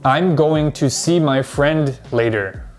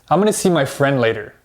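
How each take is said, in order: First: Going to is said in full. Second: Going to is reduced even further, very quickly. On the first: "Most English learners will say this" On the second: "But native speakers actually say this"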